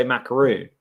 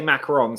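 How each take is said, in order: First: "macaroon" with a long oo in -roon; "macaroon" said as mac-a-ROON; pronunciation of macaroon. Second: "macaron" with a short o in -ron; "macaron" said as mac-a-RON; pronunciation of macaron. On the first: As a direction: end "macaroon" like "moon". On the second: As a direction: end "macaron" on a nasal "on" sound. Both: Shown as a demonstration. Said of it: "there's two ways of saying it".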